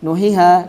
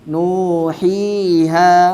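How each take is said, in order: First: The vowel is cut short. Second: The vowel is held for two beats. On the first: The speaker calls it wrong. "tidak boleh" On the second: The speaker calls it right. "tapi nuhiha"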